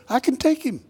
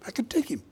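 First: Put-on higher-pitched cocky young volunteer; eager self-assurance. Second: Hushed, confident aside; whispered boast. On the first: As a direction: pipe up, sure you can win. Voices David's boast to Saul. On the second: Acted. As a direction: whisper it as if egging yourself on. Repeats David's boast under breath.

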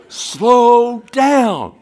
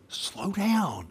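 First: High, loud, drawn-out imitated yell; exasperated mock shout. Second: High, softened imitation of calling out; feed the answer in a high, hushed mock call. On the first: Friends repeating the answer to the test taker, loud mock shout. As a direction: yell the answer back, stretching both words. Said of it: "And, and they go". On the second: Friends helping him with the driving test, hushed mock call. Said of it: "and they go".

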